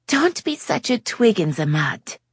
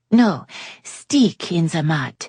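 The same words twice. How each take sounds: First: Put-on high, French-accented teasing; lightly voiced French lady. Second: Put-on slow French-accented correction; a hint of French, slower; French lady correcting herself. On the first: Yasmin teasing Jake in a high French-tinged voice. Yasmin misuses an American phrase. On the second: Yasmin correcting her phrase slowly, French-tinged. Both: A narrator's reading.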